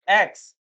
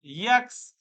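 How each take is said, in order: First: Clear, louder "एक्स" starting on the e vowel; correct letter name. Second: "यक्स" with a y sound before the vowel; wrong pronunciation. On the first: Teacher loudly demonstrating the letter name "एक्स". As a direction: hit "एक्स" cleanly, no y in front. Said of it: "ऐसे ही एक्स होता है". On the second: Teacher imitating students who say "यक्स" for "एक्स". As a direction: mimic the mistaken "यक्स". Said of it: "ये ऐसे बोलते हैं". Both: Shown as a demonstration.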